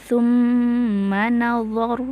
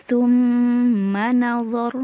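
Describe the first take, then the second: Both takes have the same delivery.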